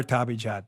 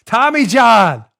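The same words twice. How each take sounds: First: Said in the usual way. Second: Tommy John louder, slow and drawn out; ad announcer punch. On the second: Acted. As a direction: sell the brand name big. Sponsor name announced.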